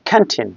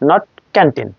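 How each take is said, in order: First: The first consonant has a strong puff of air. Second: The first consonant has no puff of air. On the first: The speaker calls it right. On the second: The speaker calls it wrong.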